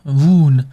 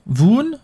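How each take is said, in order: First: Voon stated with a falling tune; settled Voon. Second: Voon asked with a rising tune; unsure, rising Voon; questioning Voon. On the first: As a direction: land on Voon firmly. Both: Shown as a demonstration. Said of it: "Fred Vaughn?".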